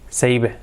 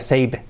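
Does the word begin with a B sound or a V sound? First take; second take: V; B. First: The first sound is made with lip and teeth. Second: The first sound is made with both lips. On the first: The speaker calls it right. "we have to say save with a V" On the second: The speaker calls it wrong. "No sería save"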